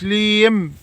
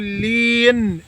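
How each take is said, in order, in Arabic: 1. الكلمة تنتهي بصوت m. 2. الكلمة تنتهي بصوت n. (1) "مش ليم" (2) "قول لين"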